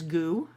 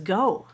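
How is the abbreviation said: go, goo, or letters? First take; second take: goo; go. First: It is said as one word rhyming with 'too'. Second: It is said as one word rhyming with 'no'. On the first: "I always pronounce it as goo" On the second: "what if I pronounced it as go?"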